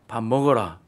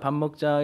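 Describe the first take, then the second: First: It is said in a stern, commanding tone. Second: It is said in a gentle, inviting tone.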